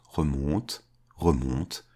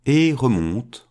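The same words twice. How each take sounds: First: Softer and lower, as if receding; fading away. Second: Slow, louder start of the climb; first step of a fading climb; climbing away. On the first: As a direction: let it drift off into the distance. Climbing up, fading into distance. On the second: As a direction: stretch it out as he sets off. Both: A narrator's reading.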